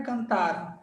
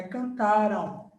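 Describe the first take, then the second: First: "cantaram" with the final U glide left off; wrong ending demo. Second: "cantaram" slowed, ending in a nasal ão; correct ending demo. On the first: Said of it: "não é cantaram". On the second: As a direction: say "cantaram" slowly with a final U glide. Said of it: "é cantaram". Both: Shown as a demonstration.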